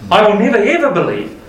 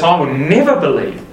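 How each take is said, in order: First: "never, ever" pushed higher and faster; second take, emphatic rising push on "never, ever"; stress on never ever. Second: I will "never" believe, firm fall on never; first take, firm stress on "never". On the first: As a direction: escalate hard on "never, ever". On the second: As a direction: lean on "never" once, firmly. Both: Retold or imitated. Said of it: "He says".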